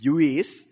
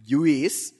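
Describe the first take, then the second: First: It is said like jew followed by is. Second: The same.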